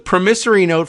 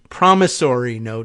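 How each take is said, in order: First: Promissory is said with a British pronunciation. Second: Promissory is said with an American pronunciation. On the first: "I think I used the British pronunciation" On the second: "I guess is how we would say it here in the United States"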